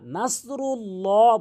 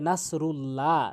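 First: The lam is heavy, sounding like a rounded 'lo'. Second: The lam is thin, sounding like an open 'la'. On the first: The speaker calls it right. "নাসরুল্লাহ বলতে হবে" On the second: The speaker calls it wrong. "অনেকেই বলে নাসরুল্লাহ"

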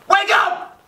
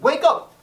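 First: It is shouted loudly and harshly. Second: It is said fairly mildly.

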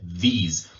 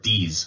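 First: The word begins with a th sound. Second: The word begins with a d sound. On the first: The speaker calls it right. "So there's resonance at the beginning, th" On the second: The speaker calls it wrong. "otherwise it's a D sound and it sounds like this or these, which you don't want"

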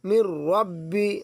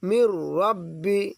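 First: The n merges into a doubled r sound. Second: The same.

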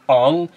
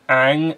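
First: The vowel sounds like the one in 'song'. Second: The vowel sounds like the one in 'bang'. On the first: This is the Eastern-style way of saying the name. The speaker calls it wrong. "and not Ong" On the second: This is how the show says the name. The speaker calls it right. "is pronounced Aang"

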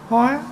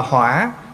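First: The word has a level tone. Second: The word has a dipping tone. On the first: It is a flower. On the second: One flares up in anger.

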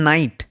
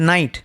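The two takes are said the same way.

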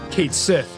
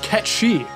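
First: The name sounds like 'Kate Sith', two separate words. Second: The name sounds like 'Ketshi', one run-together word. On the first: The speaker calls it wrong. "isn't pronounced how it's spelled" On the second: The speaker calls it right. "is pronounced Ketshi"

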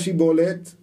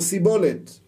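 First: The word begins with a sh sound. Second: The word begins with an s sound. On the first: The speaker can pronounce the shin sound. The speaker calls it right. "אמור נא שיבולת" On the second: The speaker cannot pronounce the shin sound. The speaker calls it wrong. "במקום שין הוא אמר סין"

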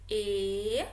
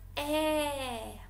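First: The vowel is said with a closed sound. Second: The vowel is said with an open sound.

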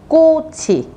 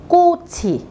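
No difference in how they are said.

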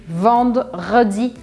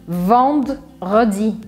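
Both takes have the same delivery.

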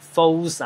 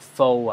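First: The word ends with an audible consonant sound. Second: The word ends in a vowel with no x sound. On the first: The speaker calls it wrong. "唔係讀false 啊。嗰個x 係唔發音嘅" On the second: The speaker calls it right. "faux 咧就讀faux 啊"

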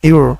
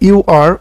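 First: The two words are blended into one syllable. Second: The two words are said separately. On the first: "অনুরূপভাবে ইউ আর অথবা ইউর" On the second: "অনুরূপভাবে ইউ আর অথবা ইউর"

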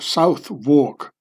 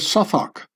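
First: It is said with an American pronunciation. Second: It is said with a London pronunciation.

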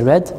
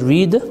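First: The vowel is short, like in 'red'. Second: The vowel is long, like in 'reed'. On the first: The speaker calls it right. "but we say read" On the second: The speaker calls it wrong. "We don't say read"

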